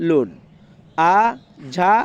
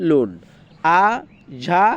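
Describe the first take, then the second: The two takes are said the same way.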